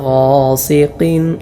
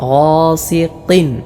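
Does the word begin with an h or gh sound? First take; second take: gh; gh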